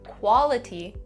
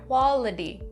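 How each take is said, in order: First: The middle consonant is a clear T sound. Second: The middle consonant is a soft D sound. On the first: "instead of saying quality" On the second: "when the T comes between two vowels, we'll change it to a D sound"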